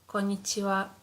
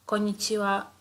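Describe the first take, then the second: Both takes have the same delivery.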